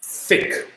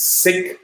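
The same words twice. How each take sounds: First: Thick begun with an unvoiced TH; TH pronunciation. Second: Sick said with a hissed S at the start; S pronunciation. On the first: Learner contrasting S and T H, TH in Thick. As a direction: say Thick with TH, not S. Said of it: "and T H". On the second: Learner contrasting S and T H, S in sick. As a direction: say sick with S, not TH. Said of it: "pronunciation of S". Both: Shown as a demonstration.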